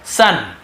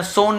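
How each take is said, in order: First: "सन" with a short uh vowel; careful short uh in "सन"; right pronunciation. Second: "सोन" with a closed long o; teacher giving "सोन" as what not to say; wrong pronunciation. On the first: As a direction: model "सन" like English sun. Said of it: "देखिए सन पढ़ते हैं". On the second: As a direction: show the mistaken long o in "सोन". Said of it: "सोन नहीं पढ़ेंगे". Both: Shown as a demonstration.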